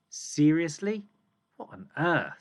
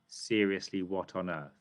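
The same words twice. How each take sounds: First: It is read with strong emphasis and feeling. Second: It is read flatly without extra emphasis. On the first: The speaker calls it right. "I'm putting emphasis" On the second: The speaker calls it wrong. "Are we going to read it like that?"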